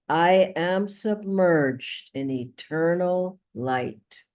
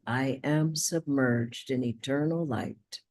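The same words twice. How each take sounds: First: It is said at a louder volume. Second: It is said more quietly.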